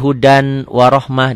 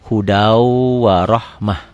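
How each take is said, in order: First: A clear n is heard before the w. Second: The n merges into a nasalized w. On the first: This is how it is written. "Tulisannya hudan warohmah" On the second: This is how it is recited. "dibacanya hudau warohmah"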